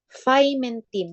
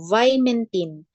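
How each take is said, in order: First: The word begins with an f sound. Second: The word begins with a v sound.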